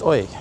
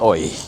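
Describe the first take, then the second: First: It is said in a light, friendly way. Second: It is said in a crass, rough way. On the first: It is a simple friendly hello. "But here it's just oi, hi" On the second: It is a rude way to get attention. "kind of crass and formal"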